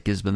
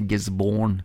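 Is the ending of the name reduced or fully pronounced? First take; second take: reduced; full. First: The ending of the name is short and reduced. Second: The ending of the name is fully pronounced. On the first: This is how locals say it. The speaker calls it right. "I think they just say Gisborne" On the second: This is not how locals say it. The speaker calls it wrong. "they don't say Gisborne with an E"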